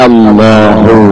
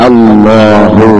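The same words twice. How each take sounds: Both takes have the same delivery.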